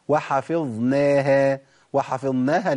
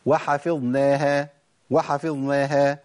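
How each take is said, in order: First: وحفظناها with the ظ kept and drawn out; correct ظ. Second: وحفظناها with ظ swallowed into a doubled nun; wrong demo. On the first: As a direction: hold the ظ clearly before نا. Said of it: "أسقطت حرف". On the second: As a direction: merge the ظ into the نون. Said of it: "تقلب إلى نون". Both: Shown as a demonstration.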